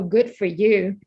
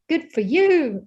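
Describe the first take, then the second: First: It is said in a sarcastic, unimpressed tone. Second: It is said in a warm, sincere tone. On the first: The speaker is not happy for them. "it could also be used ironically" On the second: The speaker is happy for them. "it's positive and you're supportive and you're congratulative"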